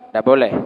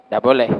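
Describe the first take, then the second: No difference in how they are said.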